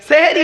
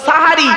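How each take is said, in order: First: The first vowel is an 'e' sound. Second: The first vowel is an 'a' sound. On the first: The speaker calls it wrong. "এই তো ভুল হয়ে গেল, সেহেরি নয়" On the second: The speaker calls it right. "শব্দটা সাহারি"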